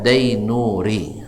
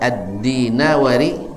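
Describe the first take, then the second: First: The name begins with 'dai' and has three syllables. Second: The name begins with 'di' and has four syllables. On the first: The speaker calls it wrong. "sering dibaca oleh orang kita Dainuri" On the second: The speaker calls it right.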